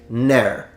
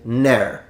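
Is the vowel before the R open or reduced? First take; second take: reduced; reduced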